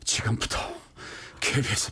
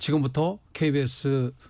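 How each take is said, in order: First: The voice is panting and out of breath. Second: The voice is calm and steady. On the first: The announcer had just run in late. "근데 그날만은 좀 달랐어요. ... 막 이러는 거예요" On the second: It was an ordinary opening. "보통 이제 뭐, ... 뭐 이렇게 얘기를 했었죠"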